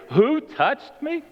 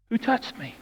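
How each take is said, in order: First: Slow, high, rising mock question; incredulous echo. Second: Soft, higher-pitched asking; hushed question. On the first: Disciples quote Jesus back to him, incredulous. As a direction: throw the question back, drawn out in disbelief. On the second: Acted. Jesus turns and looks through the crowd, hushed. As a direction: ask it quietly, pitched up.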